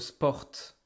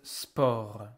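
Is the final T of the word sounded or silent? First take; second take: sounded; silent. First: The final T sound is pronounced. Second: The final T sound is silent. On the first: The speaker calls it wrong. "You don't say le sport" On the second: The speaker calls it right. "you don't hear the T"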